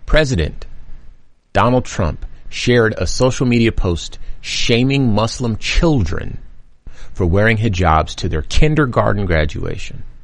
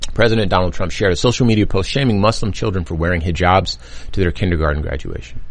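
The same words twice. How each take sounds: First: It is read a little slowly. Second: It is read at a normal speed.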